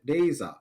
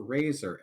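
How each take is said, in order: First: "Razor" said Japanese-style, like "deiza"; Japanese accent. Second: Said in the usual way. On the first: Shown as a demonstration.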